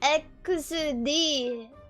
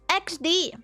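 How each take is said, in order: First: The letters are read with Japanese sounds 'ekusu dee'. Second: The letters are read as English 'ex dee'. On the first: "In the Wikipedia Japan, it says" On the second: "somebody from America is going to look at that and go"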